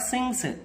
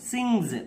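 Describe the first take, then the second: First: The word ends with a hissing s sound. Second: The word ends with a buzzing z sound. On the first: The speaker calls it wrong. "It ఈస్ not సింగ్స్" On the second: The speaker calls it right. "జా అవుతుంది"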